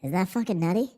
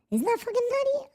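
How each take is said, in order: First: Said in the usual way. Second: Fast, way higher squeak on nutty; squeaky high repeat. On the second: Shown as a demonstration. Marvelling at the stock market to chat, in a high fast squeak.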